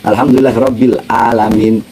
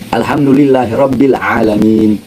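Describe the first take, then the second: First: The last word starts with a glottal stop. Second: The last word starts with a throaty ain. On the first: Praise to the Lord of the sick. The speaker calls it wrong. "Tapi ente baca hamzah" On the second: Praise to the Lord of the worlds. The speaker calls it right.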